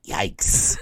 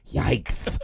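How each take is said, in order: First: Said in the usual way. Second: Deadpan yikes, understated; dry yikes. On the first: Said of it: "he goes". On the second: Retold or imitated. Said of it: "Like that".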